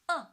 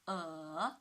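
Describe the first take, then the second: First: The pitch falls sharply from high to low. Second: The pitch dips low, then rises. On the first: "From five to one" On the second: "the third tone ... from two to one to four"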